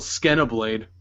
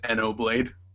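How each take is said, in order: First: The word begins with a 'sk' sound. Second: The word begins directly with a vowel. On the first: "it's got an X. I might as well just call it Skenoblade" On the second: "it's silent, so it's just Enoblade"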